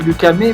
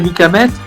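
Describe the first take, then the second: First: The surname has its Le Havre pronunciation. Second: The surname has its usual wider pronunciation. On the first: This is how people from his home town say it. "pour les Havrais, c'est Luc Hamé" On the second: This is how most people who know him say it. "pour la plus grande partie des gens qui me connaissent"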